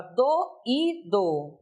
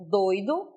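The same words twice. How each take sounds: First: "doído" split slowly into do-Í-do; isolated stressed I. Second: "doido" as DOI-do, two syllables; diphthong. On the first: Teacher showing the hiatus in the word, isolated I. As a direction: say "doído" in three syllables, the I on its own. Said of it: "esse I também ocorre em sílaba isolada". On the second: Teacher contrasting the adjective, vowels joined in a diphthong. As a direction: say "doido" with O gliding into I, stress on O. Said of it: "doido aí nesse contexto ocorre um ditongo". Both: Shown as a demonstration.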